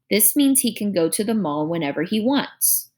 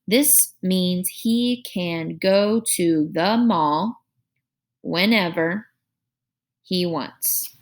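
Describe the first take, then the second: First: The sentence flows without any pauses. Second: The sentence is broken up by pauses. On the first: The speaker calls it right. "We don't need those pauses" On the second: The speaker calls it wrong. "we're going to read it with that pause"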